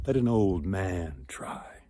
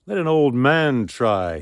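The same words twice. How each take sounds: First: Soft, slow whispered request; old beggar speaking almost inaudibly; barely heard whisper. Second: Louder, firmer repeat of the request. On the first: Beggar asks the suitors quietly, in a whisper. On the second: Beggar repeats his request so the hall hears, louder. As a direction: make yourself heard this time. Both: A narrator's reading. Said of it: "They barely heard him at first".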